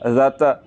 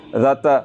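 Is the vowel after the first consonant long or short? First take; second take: short; short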